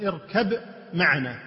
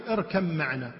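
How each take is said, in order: First: "اركب معنا" as irkab ma'ana, with a distinct b; unmerged ba. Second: "اركب معنا" as irkam-ma'ana, no b heard; mim, not ba. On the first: Teacher showing the second reading, unmerged ba. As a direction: sound the ب of "اركب" separately before "معنا". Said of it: "وهنا قراءة ثانية أيضًا مشهورة". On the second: Teacher showing the reading used in Kuwait, mim not ba. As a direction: turn the ب of "اركب" into م, joined to "معنا". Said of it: "بالميم وليس بالباء". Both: Shown as a demonstration.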